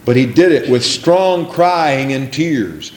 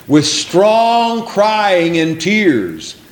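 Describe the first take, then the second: First: Said in the usual way. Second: Each word drawn out slowly; slow stressed phrase. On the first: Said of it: "first reading of phrase". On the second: Shown as a demonstration. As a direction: lean on STRONG, very slow. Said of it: "repeats phrase slowly".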